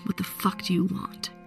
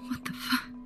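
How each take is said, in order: First: It is said in an angry, commanding tone. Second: It is said as a frightened whimper.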